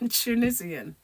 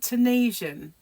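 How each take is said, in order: First: It is said with a British pronunciation. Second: It is said with an American pronunciation. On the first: "we're Tunisian" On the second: "but you call it Tunisian"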